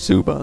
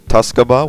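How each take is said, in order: First: The T and K sounds are dropped. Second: The T and K sounds are fully pronounced. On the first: The speaker calls it right. "you don't pronounce the T and the K" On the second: The speaker calls it wrong. "most people pronounce it Tuscaba, which is incorrect"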